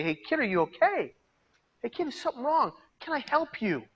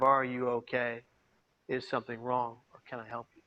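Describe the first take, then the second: First: Much higher, gentle concerned asking; caring stranger. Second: Soft, low, fading concerned questions; gentle check-in. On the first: Pretend. Imagined bus passenger asking the crying kid, high and caring. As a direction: reach out kindly to a hurting kid. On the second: Shown as a demonstration. Speaker showing the audience how to ask a stranger, soft and gentle. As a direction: model how to ask quietly and kindly. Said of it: "say something to the effect of".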